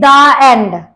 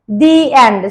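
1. 'The' का उच्चारण छोटे 'uh' स्वर के साथ होता है। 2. 'The' का उच्चारण लंबे 'ee' स्वर के साथ होता है। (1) "we do not say it" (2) "it is spoken as"

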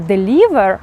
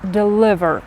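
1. Голосний i — напружений звук 'ee'. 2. Голосний i — розслаблений звук 'ih'. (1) "Не deliver" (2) "а deliver"

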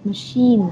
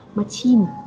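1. Phụ âm ở giữa là âm 'sh'. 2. Phụ âm ở giữa là âm 'ch'. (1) "đọc đúng từ machine" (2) "nhiều bạn mắc sai lầm là khi nhìn thấy cái từ này các bạn sẽ đọc là"

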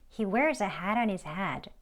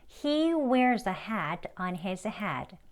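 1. 이 문장은 빠르고 이어서 말해요. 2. 이 문장은 느리고 또박또박 말해요.

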